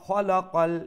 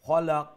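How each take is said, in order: First: The final vowel is voiced and flows into the next word. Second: The word ends on a bouncing stopped final consonant. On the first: The reciter continues into the next verse. "আর যদি কন্টিনিউ করেন তাইলে" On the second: The reciter stops at the end of the verse. "কালকালা হয়ে যাব"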